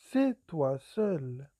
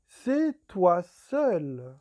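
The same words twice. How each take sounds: First: Said in the usual way. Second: "C'est toi seul" very slow and louder; drawn-out, loud "C'est toi seul"; slow emphasis. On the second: Shown as a demonstration. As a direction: weigh every word of "C'est toi seul".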